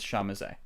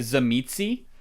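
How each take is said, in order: First: The name begins with an 'sh' sound. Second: The name begins with a 'z' sound. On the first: This is the actual pronunciation of the name. The speaker calls it right. "actual pronunciation is Shamazet" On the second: This is how the name looks when read. The speaker calls it wrong. "Most people just give it just say Zamitzi because that's like what it looks like"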